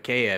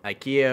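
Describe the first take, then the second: First: It is said with a Swedish pronunciation. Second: It is said with an English pronunciation.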